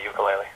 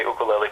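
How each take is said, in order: First: "ukulele" starting like "you"; English-style "ukulele" with a Y glide; anglicized pronunciation. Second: "ukulele" starting "oo", no Y glide; Hawaiian-style "ukulele" with a pure first vowel; Hawaiian pronunciation. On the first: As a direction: say ukulele as yoo-kuh-LAY-lee. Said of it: "the wrong way". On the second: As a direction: say ukulele as oo-kuh-LAY-lee. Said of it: "if you say ukulele". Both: Shown as a demonstration.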